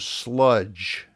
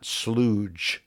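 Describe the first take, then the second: First: The vowel matches the vowel in fudge. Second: The vowel differs from the vowel in fudge. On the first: The speaker calls it right. "he often finds some sludge" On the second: The speaker calls it wrong. "not slooge"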